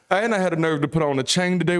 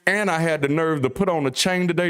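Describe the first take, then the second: First: Quicker run through the same line; faster repeat. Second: Said in the usual way. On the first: Shown as a demonstration. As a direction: rattle it off faster this time. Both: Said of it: "repeats line for effect".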